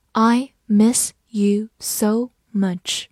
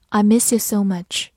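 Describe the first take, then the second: First: Slow tender read. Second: Said in the usual way. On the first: Shown as a demonstration. Teacher reading a love line slowly to students. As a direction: let the love line linger. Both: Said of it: "这句情话".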